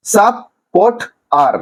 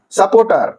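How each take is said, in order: First: support আর in three beats, with pauses; syllable by syllable. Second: Said in the usual way. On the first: Shown as a demonstration. Teacher showing three syllables to students, support আর broken apart. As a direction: separate support আর into সাপ, port, আর. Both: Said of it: "তিনটা সিলেবেলে ভাঙা হয়েছে".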